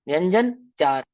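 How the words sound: It is split into two words with a break. The speaker calls it wrong. "तो कहेंगे कि किसी चार व्यंजनों की बात चल रही है यहाँ पर, ऐसा नहीं।"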